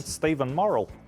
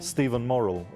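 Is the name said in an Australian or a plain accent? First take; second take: Australian; plain. First: The name is said in an Australian accent. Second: The name is said in a plain accent.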